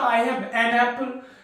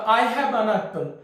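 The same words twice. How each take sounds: First: The word 'an' has a full clear vowel. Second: The word 'an' has a short reduced vowel. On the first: "इसी का जो strong form होता" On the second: "native speaker लोग smoothness लाने के लिए weak form का use करता"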